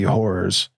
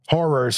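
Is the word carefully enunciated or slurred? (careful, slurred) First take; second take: slurred; careful. First: The word is slurred and unclear. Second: The word is carefully and clearly enunciated. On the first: The speaker calls it wrong. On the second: The speaker calls it right.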